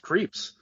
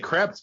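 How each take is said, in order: First: The name is said with a long 'ee' vowel. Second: The name is said with a short 'e' vowel. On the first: The speaker calls it right. "it's pronounced Creeps" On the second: The speaker calls it wrong. "I want to say Krebs"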